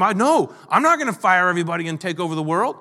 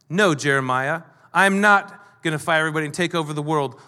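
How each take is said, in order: First: Mock indignant denial, rising at the end; indignant protest. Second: Understated firm denial, falling at the end; simple emphatic truth. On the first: Someone defending his reputation against a rumour, indignant. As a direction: protest it quickly, ending on an incredulous rise. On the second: Acted. Nehemiah answering a false rumour, simple and emphatic. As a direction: state it plainly and settle it. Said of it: "It was a very simple, emphatic truth".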